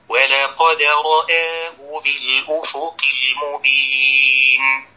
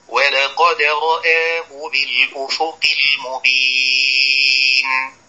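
Both takes have the same delivery.

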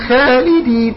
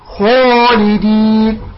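First: The long a vowel sounds light and thin. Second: The long a vowel sounds heavy and dark. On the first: The speaker calls it wrong. "رققت الألف هذا غير صحيح" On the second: The speaker calls it right. "فالألف يفخم"

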